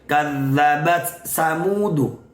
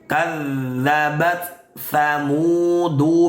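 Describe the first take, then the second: First: The second word begins with an 's' sound. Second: The second word begins with a 'th' sound. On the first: The speaker calls it wrong. "terkadang kita membacanya kadzabat samudu" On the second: The speaker calls it right. "yang betul adalah"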